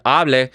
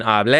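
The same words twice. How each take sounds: First: "hable" stressed on its front syllable; "hable" with first-syllable stress. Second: First "hable" said as hablé, end-stressed; "hable" with final-syllable stress; stress on the last syllable. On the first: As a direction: put the weight on the start of "hable", AH-bleh. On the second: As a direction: put the weight on the end of "hable", ah-BLEH. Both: Shown as a demonstration. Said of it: "The difference between hable and hable".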